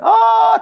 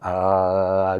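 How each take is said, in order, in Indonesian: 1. Kata itu diucapkan dengan nada keras dan marah. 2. Kata itu diucapkan dengan nada lembut. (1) "nadanya jangan ah" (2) "Cara ngejawabnya mesti baik"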